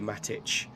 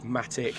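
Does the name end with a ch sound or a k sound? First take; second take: ch; k. First: The name ends with a ch sound. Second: The name ends with a k sound. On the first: "it ends in a C, it's pronounced ch" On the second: "so if it was Matic"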